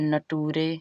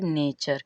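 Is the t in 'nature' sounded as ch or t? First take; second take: t; ch. First: The t is sounded as a plain t. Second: The t is sounded as ch. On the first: The speaker calls it wrong. "बहुत लोग पढ़ देते हैं नटूरे" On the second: The speaker calls it right. "टी का उच्चारण च होता है"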